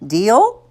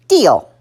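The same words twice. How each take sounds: First: DEAL rising as a question; offering a deal. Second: DEAL falling and firm, louder; short, falling DEAL of agreement; agreeing. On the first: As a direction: lift the pitch on DEAL to ask for agreement. Mother offers a bargain. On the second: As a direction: drop the pitch on DEAL to close the bargain. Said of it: "decided it was his best interest to agree". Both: A narrator's reading.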